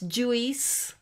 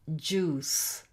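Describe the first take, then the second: First: The vowel is not a plain 'oo' sound. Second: The vowel is a plain 'oo' sound. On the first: The speaker calls it wrong. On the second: The speaker calls it right.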